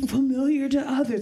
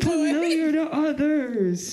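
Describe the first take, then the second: First: It is said in a plain, ordinary speaking voice. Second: It is said in a drawn-out, booming announcer voice.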